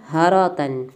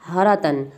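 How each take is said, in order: The two takes are said the same way.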